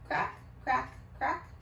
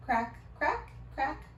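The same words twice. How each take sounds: The two takes are said the same way.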